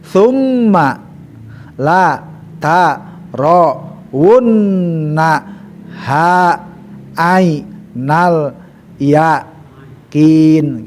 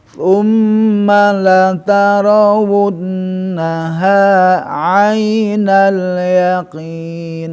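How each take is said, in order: First: It is broken into separate syllable chunks. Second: It flows smoothly without breaks between syllables. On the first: The reader is still learning the letters. "Ya terputus aja. ... Terputus-putus" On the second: The reader already knows the letters by reflex. "terus akhirnya seret ... kalau sudah betul-betul huruf sudah refleks"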